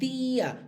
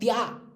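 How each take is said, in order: First: The stress falls on the i. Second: The stress falls on the a. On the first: The speaker calls it right. "Hay que ponerle la I para decir tía" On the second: The speaker calls it wrong. "Si no diríamos tía, porque la A es más fuerte"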